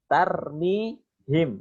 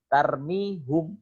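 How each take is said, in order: First: The last syllable has the vowel i. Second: The last syllable has the vowel u. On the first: It is easier to pronounce after ya sukun. The speaker calls it right. "Itu lebih enak daripada tarmihum" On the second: It is harder to pronounce after ya sukun. The speaker calls it wrong. "yang awalnya dhammah"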